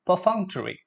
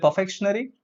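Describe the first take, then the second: First: "perfunctory" as per-FUNK-tuh-ree; correct pronunciation. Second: "perfectionary" as per-FEK-shun-ary, questioning; mispronunciation. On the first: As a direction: correct it to "perfunctory", falling at the end. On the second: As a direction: ask with "perfectionary" wrongly ending in -shun-ary. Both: Shown as a demonstration. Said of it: "No, perfunctory".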